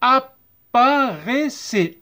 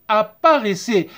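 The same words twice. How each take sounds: First: Slow "Apparaissez", cut into ap-pa-rai-ssez; teacher's stretched model of "Apparaissez"; syllable-by-syllable. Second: Said in the usual way. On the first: Shown as a demonstration. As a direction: sound out each part of "Apparaissez". Teacher sounds out syllables slowly.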